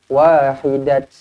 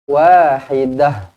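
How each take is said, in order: First: The word ends with a 't' sound. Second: The word ends with a soft 'h' sound. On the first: The speaker calls it wrong. "tak boleh berhenti dengan wahidat" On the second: The speaker calls it right. "Dia akan jadi wahidah"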